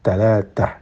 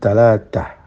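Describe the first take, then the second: No difference in how they are said.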